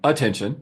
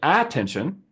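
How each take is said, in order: First: The word is pronounced in an ordinary, natural way. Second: The word is pronounced in an odd, exaggerated way.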